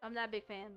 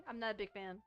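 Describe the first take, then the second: No difference in how they are said.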